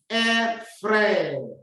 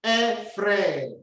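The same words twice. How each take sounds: First: "frère" with a rolled r and open è; teacher modeling a rolled r in "frère"; rolled French r. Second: "frère" repeated with a rolled r; rolled French r. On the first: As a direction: roll the r in "frère". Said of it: "roll out the tongue in your mouth". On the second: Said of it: "Can you say that?". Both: Shown as a demonstration.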